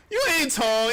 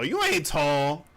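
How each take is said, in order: First: You ain't tall higher and louder, stress on You; mocking jab. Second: Said in the usual way. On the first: Shown as a demonstration. To the doubters, a high mocking jab.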